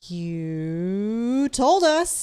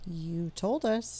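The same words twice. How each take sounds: First: It is said strongly, with more force. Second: It is said weakly, without much force.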